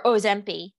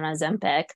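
First: Ozempi, said without the final hard c; Andy's pronunciation. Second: Said in the usual way. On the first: Retold or imitated. Quoting Andy's nickname for the drug, Ozempi ending in an ee sound. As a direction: drop the last consonant: Ozempi. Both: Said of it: "as Andy calls it".

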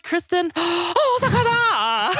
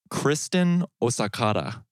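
First: Put-on high, slow, laughing pseudo-Japanese accent; "Osakata" drawn out high and slow with a pseudo-Japanese lilt; mock pseudo-Japanese accent. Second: Lightly put-on pseudo-Japanese accent. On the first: Teasing Brian by copying his pseudo-Japanese accent on "Osakata". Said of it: "You're like". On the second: Announcing a donor's name in a faint pseudo-Japanese accent. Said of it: "weird pseudo-Japanese accent".

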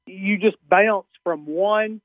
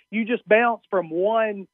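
First: "bounce" in a Southern accent, vowel drawn out; slow Southern vowel on "bounce". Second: Said in the usual way. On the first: Real, not acted. Comedian answering the radio host, Southern accent on "bounce". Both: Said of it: "that's a little Southern accent for bounce".

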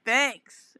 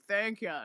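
First: Said in the usual way. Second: Soft country-accent imitation. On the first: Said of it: "Or he was like". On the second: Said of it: "in his country accent".

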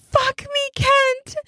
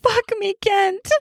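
First: Even higher, more desperate plea; whispered plea. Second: High, breathy begging plea; whispered plea. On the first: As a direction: beg again, pushing the pitch up further. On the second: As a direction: beg through a scarf, pitched up. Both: Acted. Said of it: "She whispers through the fabric".

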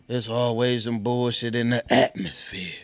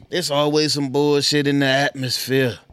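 First: Lightly imitated rapper, pitched down; rapper impression. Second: Louder first try at a rapper's voice; loud, lightly imitated rapper voice; rapper impression. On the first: Retrying a rap catchphrase for the audience, lower rapper imitation. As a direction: lower second try at a rapper's voice. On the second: Repeating a rap catchphrase to the audience, light rapper imitation. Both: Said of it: "trying to get my Rick Ross voice on".

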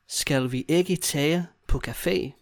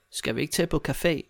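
First: Slow, careful phrasing; slow demonstration. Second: Said in the usual way. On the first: Shown as a demonstration. Teacher modelling a question to a friend, slowly. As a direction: take it slowly for the learner.

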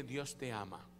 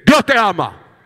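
First: Soft and low into a neighbour's ear, "Dios te ama"; softly. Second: Shouting. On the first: Pastor shows the congregation how to speak softly into a neighbour's ear. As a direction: murmur "Dios te ama" gently, close to the ear. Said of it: "¿Verdad que no le gritó?". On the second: Pastor jokes about yelling into a neighbour's ear, a huge shout. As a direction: yell "Dios te ama" at full blast into the ear. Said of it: "va al oído de su vecino y dice". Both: Shown as a demonstration.

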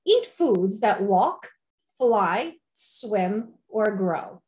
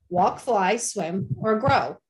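First: Said in the usual way. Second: "grow" landed with a falling, leaned-on stress. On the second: Shown as a demonstration. Urging listeners toward vegetables, stressing "grow". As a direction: give "grow" extra weight at the end of "Walk, fly, swim, or grow". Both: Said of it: "with an emphasis on grow".

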